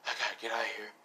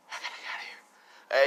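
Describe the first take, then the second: First: Low, soft murmur to himself; urgent muttering. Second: Forceful stage whisper; urgent whisper. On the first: Son realising he must flee, low murmur. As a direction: say it under your voice, still voiced. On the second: Son fleeing as cops arrive, urgent whisper. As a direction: whisper it hard to yourself. Son repeats need to flee. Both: Acted.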